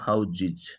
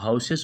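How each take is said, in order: First: The middle consonant is a z sound. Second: The middle consonant is an s sound. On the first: The speaker calls it right. "इसका उच्चारण अलग होता है और वह है हाउजिज" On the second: The speaker calls it wrong. "हाउसेस बोल देते हैं"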